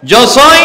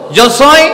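No difference in how they are said.

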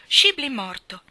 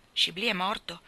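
First: Higher and much louder cry of shock; stunned disbelief. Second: Said in the usual way. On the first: Acted. Old guide echoing the death, loud and shocked. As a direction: repeat the news as if it hits you.

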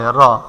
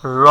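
First: র as a plain short r; mistaken ra. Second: র with tongue tip lifted, rounded full vowel; full Arabic r in র; curled-tongue ra. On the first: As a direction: say র without lifting the tongue. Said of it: "অনেক কিন্তু র বলে". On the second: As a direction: lift the tongue for a heavy র. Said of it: "এভাবে উচ্চারণ করতে হবে". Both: Shown as a demonstration.

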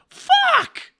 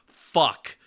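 First: A shrieking, much higher and louder yell of the word; a scream after a gut punch; pained scream. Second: Said in the usual way. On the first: Retold or imitated. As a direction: yelp it like you just took a punch to the gut. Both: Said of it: "punched in the gut and screaming".

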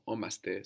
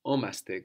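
First: Όμαστε with the first o stressed, then ma-ste unstressed. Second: Said in the usual way. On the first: Shown as a demonstration. Teacher to student, showing where the stress falls: όμαστε stressed on the o. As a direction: lean on the opening o of όμαστε. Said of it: "with the accent on the o".

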